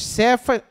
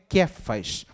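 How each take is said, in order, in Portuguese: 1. O nome começa com som de s. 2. O nome começa com som de k.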